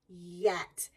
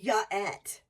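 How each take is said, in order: First: The y sound blends straight into the vowel. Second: An extra vowel splits the word into two parts. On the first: The speaker calls it right. "keep going until it blends into the next sound" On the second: The speaker calls it wrong. "We don't say ya-et"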